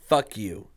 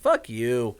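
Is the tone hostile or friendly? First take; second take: hostile; friendly. First: It is said in a hostile, angry tone. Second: It is said in a friendly, playful tone. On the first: The speaker means it as an insult. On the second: The speaker does not mean it as an insult.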